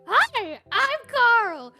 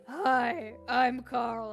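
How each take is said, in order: First: It is said in a plain, ordinary voice. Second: It is said in a sexy, seductive voice.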